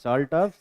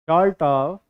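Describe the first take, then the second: First: It is said in the speaker's normal accent. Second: It is said in a put-on British accent. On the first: "normal accent में लिखो" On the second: "मैं थोड़ा सा accent में बोलता हूँ। कौन से एक्सेंट में? British accent."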